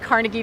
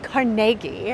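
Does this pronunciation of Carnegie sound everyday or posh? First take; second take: everyday; posh. First: It is said the familiar, everyday way. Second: It is said the posh, refined way. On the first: It is the common way of saying the name. "we're so used to saying like Carnegie Deli" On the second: It is the original, high-end way of saying the name. "I sound very pretentious being like Carnegie"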